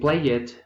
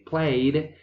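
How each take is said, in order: First: The ending is a separate extra 'id' syllable. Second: The ending is a single d sound. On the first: The speaker calls it wrong. "We don't say" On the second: The speaker calls it right. "we say"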